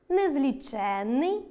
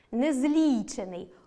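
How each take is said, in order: First: Незліченний with stress on ЧЕН, long double н; stress on the suffix. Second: Незлічений with stress on ЛІ, single н; slow незлічений, stretching ЛІ; stress on the root. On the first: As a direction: slowly stretch незлічЕННий. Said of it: "дві літери". (наголос на суфіксі: незлічЕнний) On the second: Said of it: "одна літера". (наголос на корені: незлІчений) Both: Shown as a demonstration.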